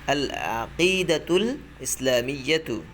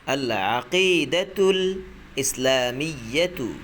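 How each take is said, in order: The two takes are said the same way.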